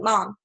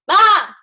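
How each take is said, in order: First: It is said fairly quietly. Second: It is yelled loudly.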